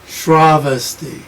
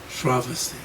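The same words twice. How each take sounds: First: The first syllable carries strong stress. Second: All syllables are said without stress. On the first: The speaker calls it wrong. "because the Shra is long, I want to say Shravasti" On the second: The speaker calls it right. "there is no stress in Sanskrit"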